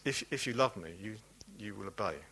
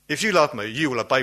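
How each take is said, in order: First: The voice sounds warm and reassuring. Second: The voice sounds demanding and challenging. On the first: Obedience follows naturally from love. The speaker calls it right. "He meant this" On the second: Obedience is required as proof of love. The speaker calls it wrong. "Most of us read it in the wrong way. Most of us read it like this"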